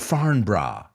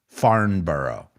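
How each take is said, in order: First: It is said with a British pronunciation. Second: It is said with an American pronunciation.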